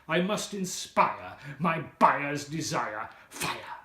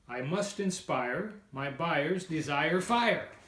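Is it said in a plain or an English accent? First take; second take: English; plain. First: It is said in a put-on English accent. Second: It is said in the speaker's plain accent.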